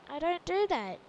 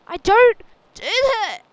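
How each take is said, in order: First: Playful protest, somewhat louder; mock protest. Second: Very loud, high-pitched playful protest; mock-outraged yell. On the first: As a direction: object firmly, still fairly contained. Protests the stereotype, first take. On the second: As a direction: yell it in exaggerated indignation.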